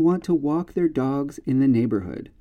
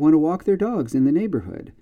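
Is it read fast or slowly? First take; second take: slowly; fast. First: It is read at a slow speed. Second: It is read at a fast speed.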